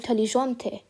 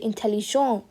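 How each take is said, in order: First: The word ends with a clear T sound. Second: The word ends without a T sound. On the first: It describes a feminine person. "I'm gonna pronounce my T, but not the E" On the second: It describes a masculine person. "not gonna pronounce the T over here"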